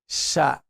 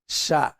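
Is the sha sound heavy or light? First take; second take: light; light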